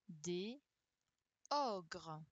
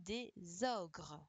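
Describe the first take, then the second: First: The two words are said without a linking z. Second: The two words are joined by a linking z. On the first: The speaker calls it wrong. "je fais pas de la liaison" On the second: The speaker calls it right. "sinon, on aurait dit des ogres"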